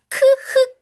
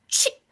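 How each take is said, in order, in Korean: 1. 두 글자는 따로 소리 나요. k 다음에 h예요. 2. 두 글자가 하나의 ch 소리를 만들어요. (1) "크흐 소리를 내는 게 아니에요" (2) "취 라는 새로운 소리를 배우게 됩니다"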